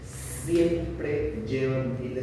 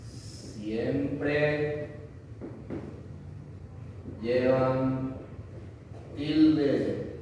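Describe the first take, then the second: First: "Siempre llevan tilde" said very slowly, stressing siempre; slow emphatic rule. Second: "Siempre", "llevan", "tilde" said as separate words with long pauses between; word-by-word emphasis. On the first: Teacher to students, repeating the accent rule slowly. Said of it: "no hay una excepción". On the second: Teacher drilling the esdrújula rule word by word. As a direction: space the words out to drill them in. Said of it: "No hay ninguna excepción acá". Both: Shown as a demonstration.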